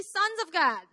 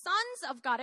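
First: "Sons of God" raised and louder, as a prompt; leading a group response. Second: Said in the usual way. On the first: Shown as a demonstration. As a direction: call out "Sons of God" for everyone to repeat. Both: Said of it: "Everyone say".

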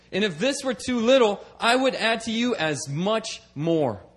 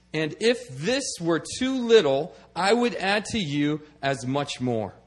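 First: Said in the usual way. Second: "if" and "would" leaned on, slow and deliberate; slow emphatic reading. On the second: Shown as a demonstration. Preacher rereading the verse to his congregation, slow emphatic stress. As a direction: read it again, slowly, weighing "if" and "would".

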